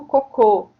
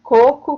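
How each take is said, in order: First: "cocô" stressed on the final syllable, co-CÔ; stress on last syllable. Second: "coco" stressed on the first syllable, co-co. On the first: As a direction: say "cocô" with the weight at the end. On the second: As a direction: say "coco" with the weight up front. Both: Shown as a demonstration. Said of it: "a gente tem ali bebe e bebê".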